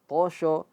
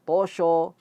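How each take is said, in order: No difference in how they are said.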